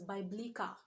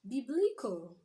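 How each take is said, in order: First: The last syllable has a full 'a' vowel. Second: The last syllable has a reduced 'uh' vowel. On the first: The speaker calls it wrong. "we usually pronounce as biblical" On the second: The speaker calls it right. "should be what?"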